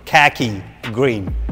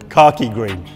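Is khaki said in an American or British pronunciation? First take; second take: American; British. First: Khaki is said with an American pronunciation. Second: Khaki is said with a British pronunciation. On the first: "as you Americans say it" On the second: "this is a British car, so it's khaki green"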